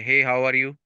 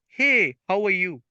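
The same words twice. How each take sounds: First: The pitch stays flat on one level. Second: The pitch rises and falls throughout. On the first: The speaker calls it wrong. "They don't say" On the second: The speaker calls it right. "there is a rise and the fall of the pitch of their sound"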